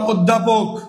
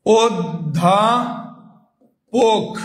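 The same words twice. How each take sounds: First: Said in the usual way. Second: অধ্যাপক very slow, as "od-dhaa-pok"; syllable-by-syllable pronunciation. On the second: Shown as a demonstration. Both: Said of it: "কি হয়ে উচ্চারণ হলো".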